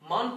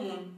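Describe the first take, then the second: First: The vowel is an open 'aa' sound. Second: The vowel is a rounded 'oo' sound. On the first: This is the form as it is written. "मान पढ़ते हैं इसको" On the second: This is how it is actually pronounced. "अलिफ को वाव से तब्दील करके इसका प्रोनाउंस"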